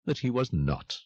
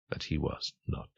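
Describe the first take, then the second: First: Said in the usual way. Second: Hushed whisper. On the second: A narrator's reading. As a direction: drop to a soft unvoiced whisper. Narrator echoes line, hushed.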